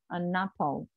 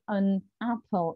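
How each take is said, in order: First: The n sound is joined onto the second word. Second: The two words are said separately, with a break. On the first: The speaker calls it right. "They would leave a alone and put n to the next vowel" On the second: The speaker calls it wrong. "they wouldn't say an apple. They wouldn't divide the, the vowels"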